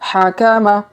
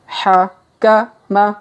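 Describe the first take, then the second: First: The syllables are read quickly. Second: The syllables are read slowly.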